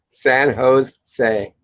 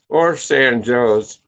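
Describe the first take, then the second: First: Jose is said the Spanish way, starting with an h sound. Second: Jose is said like the English word Joe's.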